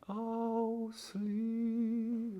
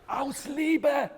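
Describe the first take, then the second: First: It is said in a soft, bittersweet tone. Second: It is said in a loud, dramatic tone.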